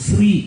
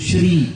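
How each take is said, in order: First: The word begins with an s sound. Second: The word begins with a sh sound. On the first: The speaker calls it wrong. "പലരും പറയുന്നത് ശ്രീ എന്നാണ്. ... S R I ശ്രീ. പക്ഷെ അങ്ങനെ ഒരു വാക്ക് വാസ്തവത്തിൽ മലയാളത്തിലോ സംസ്കൃതത്തിലോ ഇല്ല" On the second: The speaker calls it right. "ശ്രീ എന്നുള്ളതിന് പകരം"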